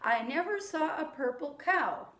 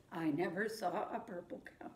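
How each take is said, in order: First: Said in the usual way. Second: Quieter echo. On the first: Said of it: "I'll say a line and then you say it back". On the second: Shown as a demonstration. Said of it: "then you say it back to me".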